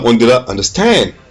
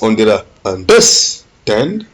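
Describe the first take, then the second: First: The stress is on the last syllable, stand. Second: The stress is on the middle syllable, der.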